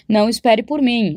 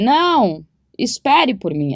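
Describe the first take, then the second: First: There is no pause after "não". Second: There is a pause right after "não". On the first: The listener is told not to wait. "Se você não lê a vírgula" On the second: The listener is asked to wait. "Não, vírgula. Espere por mim"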